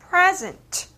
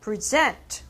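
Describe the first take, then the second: First: The stress is on the first syllable. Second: The stress is on the second syllable. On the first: It is a noun meaning a gift or the present time. "첫 번째 음절에 강세를 넣으신다면" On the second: It is a verb meaning to present. "이 음절에 강세를 넣어서"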